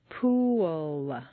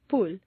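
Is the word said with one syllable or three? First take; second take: three; one. First: The word is stretched into three syllables. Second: The word is said as one short syllable. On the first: The speaker calls it right. "you need to say three syllables" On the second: The speaker calls it wrong. "if you say it this way, at best it will sound like"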